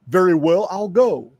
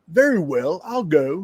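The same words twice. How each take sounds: First: It is said in the reader's ordinary accent. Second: It is said in an attempted British accent.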